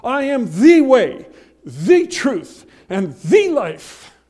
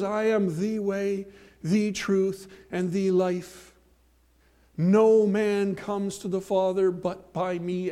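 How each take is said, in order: First: Loud, slow, every "the" hammered as "thee"; stress on THE. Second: Slow, every "the" said "thee"; stress on THE. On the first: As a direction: proclaim it, pounding each "the". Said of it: "I cannot soft pedal this verse". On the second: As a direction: read it slowly and lean on "the". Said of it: "But Jesus doesn't say that". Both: Shown as a demonstration.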